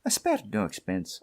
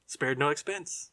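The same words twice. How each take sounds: First: A light Scottish lilt on "I spared no expense"; mild Scottish burr; Scottish accent. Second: 1 quoting Kiley. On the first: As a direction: toss off the line in a hint of Scottish. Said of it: "With that Scottish accent". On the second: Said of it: "the voice you are hearing is Mister Richard Kiley". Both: Retold or imitated.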